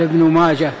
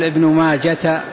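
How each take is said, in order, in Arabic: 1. ينتهي الاسم بصوت الهاء. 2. ينتهي الاسم بصوت التاء. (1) "يقال ابن ماجة بالهاء لأنه أعجمي" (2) "لا تقل ابن ماجة"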